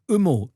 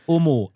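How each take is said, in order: First: The first vowel sounds like the vowel in sumo. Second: The first vowel sounds like the vowel in homo. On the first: The speaker calls it right. "It's sumo, as in umo" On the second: The speaker calls it wrong. "rather than Omo, as in homo"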